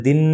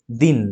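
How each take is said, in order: First: দিন with the final "n" held on; a lengthened, humming end on দিন; drawn-out closed syllable. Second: Said in the usual way. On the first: Shown as a demonstration. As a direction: stretch দিন out unnaturally. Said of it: "এভাবে হবে, হবে না". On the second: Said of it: "একে তুমি টেনে উচ্চারণ করতে পারবে".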